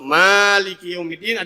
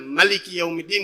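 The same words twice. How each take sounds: First: The first vowel of Maliki is long. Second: The first vowel of Maliki is short. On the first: "ada alifnya" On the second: "nggak dipanjangin"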